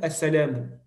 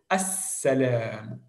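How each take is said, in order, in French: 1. Le son s est court et simple. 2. Le son s est tenu longtemps et doublé. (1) "vous n'allez pas dire assalam" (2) "vous devez insister sur cette lettre-là"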